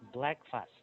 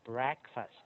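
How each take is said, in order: First: The R sound after the b is missing. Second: The R sound after the b is clear. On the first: The speaker calls it wrong. "Not breakfast" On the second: The speaker calls it right. "Make it R"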